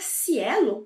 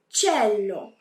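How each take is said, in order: First: The word begins with an 's' sound. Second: The word begins with a soft 'ch' sound. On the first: The speaker calls it wrong. "Naturalmente, a gente leria cielo" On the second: The speaker calls it right. "Mas em italiano, a gente lê cello"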